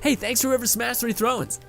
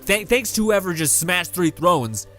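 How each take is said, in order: First: It is said in a friendly, cheerful tone. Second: It is said in an angry, annoyed tone.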